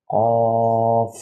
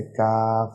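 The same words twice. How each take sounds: First: قاف with a full mouth, drawn out and a bit louder; heavy full-mouth qaf. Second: کاف said lightly and normally, not heavy; plain light kaf. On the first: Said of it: "اسے منہ بھر کے ادا کرنا ہے". (قاف منہ بھر کے، بھاری آواز میں) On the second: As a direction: keep کاف light and ordinary. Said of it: "اسے نارمل طریقے سے کاف". (کاف نارمل طریقے سے) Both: Shown as a demonstration.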